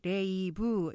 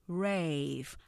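First: It is said in three separate syllables. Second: It is said as a single syllable. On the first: "이렇게 3음절로 알고 있지만" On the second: "하나로 발음하셔야 되고요"

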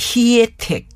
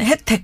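First: The word is pronounced carefully and very clearly. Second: The word is pronounced in a casual, everyday way. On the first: The speaker calls it right. "혜택 이렇게 참 발음이 좋다" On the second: The speaker calls it wrong. "보통은 혜택 그러는데"

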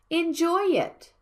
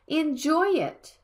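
No difference in how they are said.

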